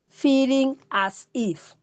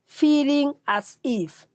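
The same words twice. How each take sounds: First: "Feeling as if" repeated slowly, "Feeling" leaned on; slow repeated definition. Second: "feeling as if" said slowly, leaning on "feeling"; slow, stressed definition. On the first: Teacher repeating the definition for students, slow and stressed. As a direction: say "Feeling as if" again, slow and weighted on "Feeling". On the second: Teacher defining empathy for students, slow and stressed. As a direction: spell out "feeling as if" slowly with weight on "feeling". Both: Shown as a demonstration. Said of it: "if I may put a simple word".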